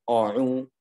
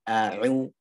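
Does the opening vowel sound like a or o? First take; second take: o; a. First: The opening vowel is thick, like o. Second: The opening vowel is thin, like a. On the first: The speaker calls it wrong. "bukan o'u" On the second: The speaker calls it right. "tapi a'u"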